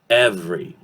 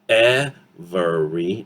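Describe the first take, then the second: First: The middle vowel drops, leaving two syllables. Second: The word is said with three full syllables. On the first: The speaker calls it right. "Two syllables" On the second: The speaker calls it wrong. "syllable by syllable"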